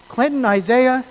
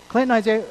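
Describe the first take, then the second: First: Put-on a mom calling a child by full name, louder and higher; a hint of a stern mom calling her kid; mom scolding with full name. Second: Said in the usual way. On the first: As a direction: call out both names like a mom who means trouble. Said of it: "when mom says your name twice". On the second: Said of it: "sometimes the tone makes a difference".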